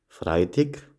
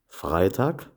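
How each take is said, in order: First: It is said with Sathmar Swabian dialect pronunciation. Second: It is said with Standard German pronunciation. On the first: "dann anschließend im Sattmar-Schwäbischen" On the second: "zuerst im Hochdeutschen"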